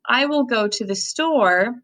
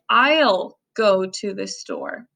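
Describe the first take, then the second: First: I will is said as two full words. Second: I will is shortened into one syllable. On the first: "instead of saying" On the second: "you could say"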